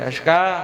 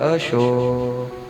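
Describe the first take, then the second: First: The name is called in a rough, curt tone. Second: The name is called in a warm, loving tone. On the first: After many years the love is gone. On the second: The marriage is new and love is fresh.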